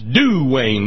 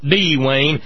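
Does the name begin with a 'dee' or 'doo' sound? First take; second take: doo; dee. First: The name begins with a 'doo' sound. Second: The name begins with a separate 'dee' sound. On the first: The speaker calls it right. "That's Duane, ... Say it right, just like he said, "Do Lord"" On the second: The speaker calls it wrong. "not D-Wayne"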